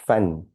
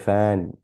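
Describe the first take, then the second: First: The vowel is kept short. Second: The vowel is drawn out long. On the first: The speaker calls it right. "Fan, right?" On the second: The speaker calls it wrong. "We don't say fan"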